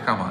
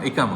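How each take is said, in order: First: The word begins with an 'a' vowel. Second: The word begins with an 'i' vowel. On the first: The speaker calls it wrong. "Sorry আকামা" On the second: The speaker calls it right. "ইকামা হচ্ছে সম্ভবত সঠিক উচ্চারণ"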